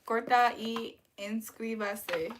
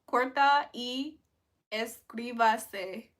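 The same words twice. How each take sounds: First: Slow, steady corta y inscríbase; slow careful Spanish. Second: Slow, deliberate corta y inscríbase; slow careful Spanish. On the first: Streamer repeating the Spanish phrase, slow and deliberate. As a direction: say corta y inscríbase slowly and evenly. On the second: Streamer trying Spanish for chat, slow and careful. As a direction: spell out corta y inscríbase word by word. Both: Shown as a demonstration. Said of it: "I said, "Like and subscribe".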